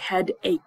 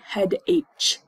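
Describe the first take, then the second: First: The word ends with a 'k' sound. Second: The word ends with a 'ch' sound. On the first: The speaker calls it right. "like a K. We hear a K sound" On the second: The speaker calls it wrong. "Do not say head H"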